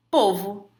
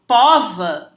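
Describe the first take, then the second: First: Povo with closed stressed o, "pôvo". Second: Pova with open stressed o, "póva". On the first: Teacher giving the example word, closed o in povo. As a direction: say povo with first vowel as ô. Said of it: "você fala com timbre fechado". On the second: Teacher forcing a feminine form, open o in pova. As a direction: stretch pova slowly, first vowel open as ó. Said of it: "ficou aberto o timbre". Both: Shown as a demonstration.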